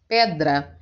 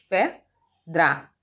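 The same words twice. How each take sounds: First: Said in the usual way. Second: "Pedra" broken as PE, pause, DRA; teacher dividing "Pedra" with a clear gap; split into syllables. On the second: Shown as a demonstration. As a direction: count out the two syllables of "Pedra" separately. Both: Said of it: "porque tem duas sílabas".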